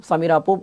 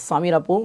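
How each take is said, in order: No difference in how they are said.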